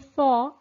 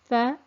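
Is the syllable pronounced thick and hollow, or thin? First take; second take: thick; thin. First: The sound is thick, hollow, with an echo. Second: The sound is thin, light, without echo. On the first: The speaker calls it wrong. "I've created an echo in my mouth and I've a concaving in my tongue to make it into a thickened letter" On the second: The speaker calls it right. "the tongue uh, remains relaxed and there's no echo sound in the mouth"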